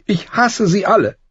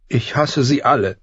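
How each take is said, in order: First: Put-on much higher, louder girl's outburst of hate; tearful hatred. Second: Put-on girl's voice, higher, confiding through sniffles; sniffling confession. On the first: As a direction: daughter spitting out her hatred in tears. (hasserfüllt, den Tränen nah) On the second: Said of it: "vertraute Arya ihm an". (schniefend anvertraut) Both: A narrator's reading.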